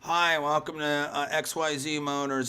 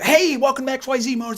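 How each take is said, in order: First: It is said flatly, with low energy. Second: It is said eagerly, with high energy.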